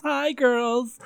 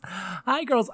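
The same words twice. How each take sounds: First: "Hi" sung out higher like a hostess; bright diva greeting. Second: Said in the usual way. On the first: Acted.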